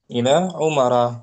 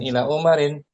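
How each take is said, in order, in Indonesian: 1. Kata terakhir berakhir dengan vokal 'a' biasa. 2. Kata terakhir berakhir dengan bunyi 'in'.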